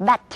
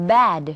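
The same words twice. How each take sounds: First: "bat" short with a crisp T; short final T. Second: "bad" held long to a voiced D; long final D. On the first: Co-teacher repeats the contrast, short final T. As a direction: stop "bat" quickly on T. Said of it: "ต่างกัน". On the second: Co-teacher repeats the contrast, long final D. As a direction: stretch "bad" before the D. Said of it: "ต้องลากเสียงยาว". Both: Shown as a demonstration.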